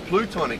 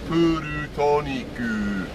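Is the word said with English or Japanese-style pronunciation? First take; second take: English; Japanese. First: It is said with ordinary English pronunciation. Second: It is said with Japanese katakana-style pronunciation.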